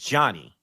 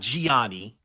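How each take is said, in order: First: The name is said like 'Johnny'. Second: The name is said like 'Gianni'. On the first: The speaker calls it right. "is Johnny" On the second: The speaker calls it wrong. "Not Gianni"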